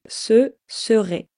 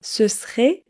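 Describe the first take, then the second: First: It is said carefully with every syllable pronounced. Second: It is said fast with the first vowel dropped.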